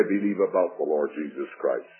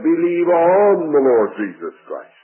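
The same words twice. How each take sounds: First: "about" leaned on, the whole line dropped lower and softer; wrong word stressed. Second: "on" punched firmly, the line a little louder; stress on ON. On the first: Preacher to congregation, mock wrong version stressing "about", lower and softer. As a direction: set the wrong phrase aside with "about" stressed, low and quiet. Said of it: "he didn't say". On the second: Preacher correcting the congregation, firm stress on "on". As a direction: proclaim it, hitting "on" as the right word. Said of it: "He said". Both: Shown as a demonstration.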